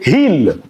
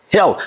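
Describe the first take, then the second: First: "hill" with a tense ee and light L, like "heel"; wrong, clear-L "hill"; mispronounced hill. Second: "hill" as hih-ul; short "hill" with a dark L. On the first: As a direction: say "hill" with no uh glide. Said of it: "Don't say hill". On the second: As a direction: glide to uh before the L in "hill". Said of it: "L is a dark L". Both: Shown as a demonstration.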